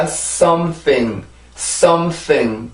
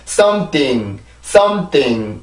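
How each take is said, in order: First: "something" with THING lifted by a light secondary stress. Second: "something" simply sliding down, second syllable unstressed; falling tune. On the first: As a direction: ride up on "some", then up again on "thing". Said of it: "소리가 한 번 타고 또 타고 올라가야". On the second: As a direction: let "something" drop away to the end. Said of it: "이렇게 내려오는 게 아니라". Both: Shown as a demonstration.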